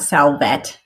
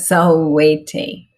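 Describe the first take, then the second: First: The word ends without its final vowel. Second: The word ends with a pronounced final vowel. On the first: The speaker calls it wrong. "not salvet" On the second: The speaker calls it right. "but salvete"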